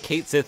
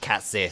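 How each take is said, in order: First: The first word rhymes with 'late'. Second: The first word rhymes with 'hat'. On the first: The speaker calls it wrong. "Kate Sith isn't actually how you pronounce that name" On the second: The speaker calls it right. "It's like Cat Sith"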